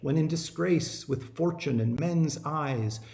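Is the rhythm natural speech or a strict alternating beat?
natural. The stresses fall as in natural English speech. The speaker calls it right. "we don't say it that way. We speak English"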